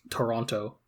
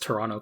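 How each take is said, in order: First: Toronto is said in an American accent. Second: Toronto is said in a local Toronto accent. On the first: "as opposed to like an American who'd be like" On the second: "local G T A English dialect pronunciation, as I have just given"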